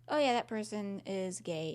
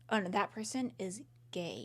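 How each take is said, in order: First: It is said in a plain, neutral tone. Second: It is said in a judgmental, disgusted tone.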